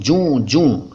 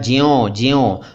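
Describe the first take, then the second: First: Each word has no glide, joon. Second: Each word has a y glide, jyon. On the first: The speaker calls it right. "अब बोल रहा हूँ जूं जूं। यही सही है।" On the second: The speaker calls it wrong. "पहले मैंने बोला था ज्यों ज्यों"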